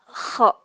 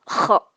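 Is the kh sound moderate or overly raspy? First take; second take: moderate; overly raspy. First: The kh friction is moderate and not overdone. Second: The kh friction is exaggerated and very raspy. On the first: The speaker calls it right. "tapi kho gitu ya" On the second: The speaker calls it wrong. "jangan terlalu berlebihan air liurnya ya. Jadi ti- bukan kho"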